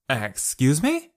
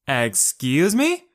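First: Rising, indignant "Excuse me?" at normal volume; angry retort. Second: Yelled. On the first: Kate turns on Sho, indignant. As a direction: bristle with offence. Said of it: "Kate turned to face Sho angrily". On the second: Kate yells back at Sho, outraged. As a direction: stretch it in outrage. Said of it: "she yelled again". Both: A narrator's reading.

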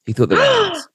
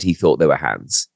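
First: Much higher, mock scandalised; scandalised emphasis. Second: Said in the usual way. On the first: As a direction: land the gossip with a gasp in the voice.

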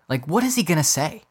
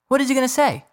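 First: Said in the usual way. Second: Repeated high and exasperated. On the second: Real, not acted. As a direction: throw it up, fed up.

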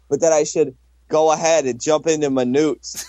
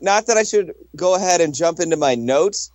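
First: "newts" with a hard ooh vowel in place of the oh of notes; imitated Philly pronunciation. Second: Said in the usual way. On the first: Teasing a co-host's Philly accent, "newts" said with a long ooh. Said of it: "Pronounce it with a hard ooh sound". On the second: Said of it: "his Philly accent just fucking shines through".

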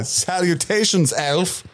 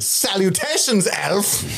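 First: Higher, slow formal salutation; slow pompous greeting. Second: Much higher, formal salutation; pompous greeting. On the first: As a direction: draw out the grand hello. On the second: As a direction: greet grandly. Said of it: "He's like". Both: Retold or imitated.

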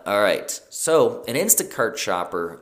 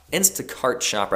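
First: Said in the usual way. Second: Instacart shopper with a dropped Boston r, "Instacart" as Instacaht; a slipped-in Boston accent; casual accidental Boston accent. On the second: Real, not acted. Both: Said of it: "I don't know why I said that with Boston accent".

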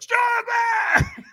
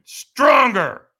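First: Very high, loud raw scream. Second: Loud, high, drawn-out push; demanding shout. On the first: Trainer in the firewalker's face, screaming. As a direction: scream it right into someone's face. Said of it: "And he screams at me". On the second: Trainer pushing the firewalker for more, demanding shout. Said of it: "And he went". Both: Retold or imitated.

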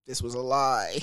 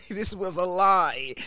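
First: Said in the usual way. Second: Higher, louder, slower repeat of lie; mock outrage. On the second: Shown as a demonstration. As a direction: hammer the word lie in disbelief.

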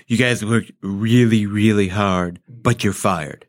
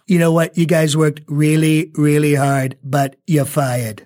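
First: Low, slow attempt at Trump; lightly voiced Trump try; Trump impression attempt. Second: Slowed Trump, drawn-out fired; lightly voiced Trump; Trump impression. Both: Shown as a demonstration. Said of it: "Show me how to do it".

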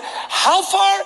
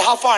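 First: High-pitched call down the stands; calling from afar. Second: Said in the usual way. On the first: Retold or imitated. Fan forty feet up asking the usher, high distant call.

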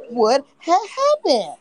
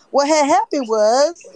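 First: Said in the usual way. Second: Slow drawn-out catchphrase. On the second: Shown as a demonstration. Streamer slowly drawls the catchphrase to chat. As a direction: stretch out what had happened was, slow.

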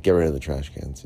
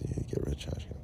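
First: Said in the usual way. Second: Whispered under the breath, scornful; muttered mocking echo. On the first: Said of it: "they're like". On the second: Mocking the police order to himself, whispered.

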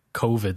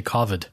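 First: Covid said with a long O, like "coe-vid"; English covid. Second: Covid said with a short O, like "cah-vid". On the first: A rant about English people saying covid, with a long O. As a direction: covid with an OH sound. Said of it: "the way some people, English people say". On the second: Mocking how some say covid, with a short O. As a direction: covid rhyming with "bother". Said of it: "They say covid". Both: Shown as a demonstration.

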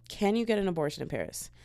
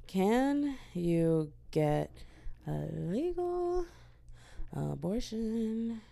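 First: Said in the usual way. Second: Very slow, soft, stretched words; absent-minded, halting and hushed; typing aloud. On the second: Real, not acted. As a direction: draw each word out as you type it. Reads search aloud while typing.

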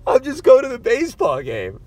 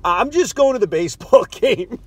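First: Higher, louder nervous retelling; anxious squeaky retold line; nervous repeat. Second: A laugh breaking into the quote; nervous laugh through the quote. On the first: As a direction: replay your own nervous line. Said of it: "That's what I said to this guy". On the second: Retold or imitated. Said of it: "So now I say".

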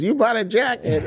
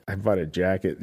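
First: Shocked, high-pitched disbelief; sudden sharp surprise; incredulous. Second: Said in the usual way. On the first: Retold or imitated. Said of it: "She goes". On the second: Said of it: "And she goes".

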